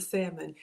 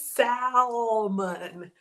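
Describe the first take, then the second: First: "salmon" with the L left silent. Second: "salmon" hugely drawn out with the L sounded; L pronounced. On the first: Shown as a demonstration. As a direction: say "salmon" as SAM-un. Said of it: "I am going to pronounce it". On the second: Retold or imitated. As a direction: stretch "salmon" into a slow SAAAL-mun. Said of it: "have the letter L pronounced".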